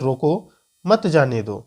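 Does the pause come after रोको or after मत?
after रोको. There is a pause right after रोको.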